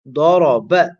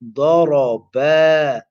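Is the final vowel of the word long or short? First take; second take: short; long. First: The final vowel is cut short. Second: The final vowel is stretched long. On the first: He hit. The speaker calls it wrong. "if the person doesn't say ba, then the alif would not be pronounced" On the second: They both hit. The speaker calls it right. "the reciter will have to perform the mad at the end. You have to say ba"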